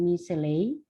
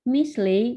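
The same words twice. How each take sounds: First: Slow "misley" said as "mi-se-ley"; the mistake to avoid, slowly; wrong reading. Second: Raised, louder "Misley"; "Mis-ley", with no vowel after the s; right reading. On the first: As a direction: drag "misley" out with an extra e in the middle. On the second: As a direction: call out "Misley" high and strong as the model. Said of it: "bukan misley". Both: Shown as a demonstration.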